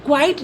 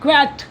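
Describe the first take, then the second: First: क्वाइट with an "ai" vowel, "kvait"; wrong pronunciation. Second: क्वैट with an open e, "kvet"; correct pronunciation. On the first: Teacher rejects this reading for students, wrong pronunciation. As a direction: misread it as क्वाइट, rhyming with "kite". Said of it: "नहीं बोलेंगे". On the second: Teacher answers how to say it, correct pronunciation. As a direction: say क्वैट as one syllable, "kvet". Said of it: "इसको क्या बोलेंगे?". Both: Shown as a demonstration.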